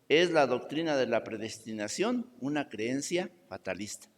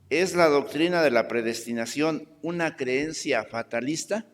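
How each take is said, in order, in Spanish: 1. Se dice como afirmación, bajando. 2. Se dice como pregunta, subiendo.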